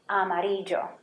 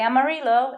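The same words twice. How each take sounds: First: The double L sounds like an English y. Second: The double L sounds like an English l. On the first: The speaker calls it right. "it's amarillo" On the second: The speaker calls it wrong. "We don't say amarillo"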